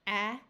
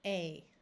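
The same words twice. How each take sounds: First: The letter is said with its short vowel sound. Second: The letter is said with its long vowel sound. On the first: "We will do the short sound first" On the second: "Let's practice both sounds"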